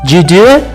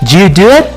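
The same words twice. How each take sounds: The two takes are said the same way.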